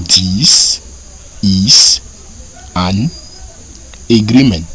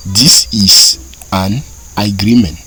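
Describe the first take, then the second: First: This, is, an, agreement spoken one word at a time with pauses. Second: Said in the usual way. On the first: Shown as a demonstration. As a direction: space out each word for learners. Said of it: "Pour dire ceci est un accord". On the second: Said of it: "Ceci est un accord".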